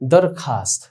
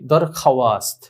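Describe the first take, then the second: First: No 'w' sound is pronounced after the 'kha'. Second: A 'w' sound is pronounced after the 'kha'. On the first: The speaker calls it right. "ওয়াওটি উচ্চারণে আসেনি" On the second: The speaker calls it wrong. "আমরা মনে করি যে এরকম মনে হয় উচ্চারণ হবে, না"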